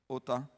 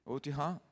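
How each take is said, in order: First: Otá said short, stressed at the end; feminine form. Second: Otihá said slowly, with a rising tune at the end; masculine form. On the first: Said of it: "pra mulher". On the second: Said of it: "você pra homem". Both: Shown as a demonstration. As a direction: pastor contrasting the male and female forms, clearly.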